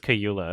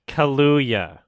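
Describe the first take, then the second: First: The second syllable sounds like 'yoo'. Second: The second syllable sounds like 'loo'. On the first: The speaker calls it wrong. "I think I've been pronouncing it wrong this entire time" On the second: The speaker calls it right. "But you weren't right either. We were both wrong"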